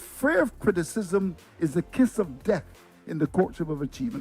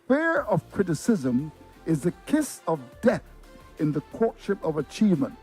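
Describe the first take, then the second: First: It is said at normal speed. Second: It is said slowly.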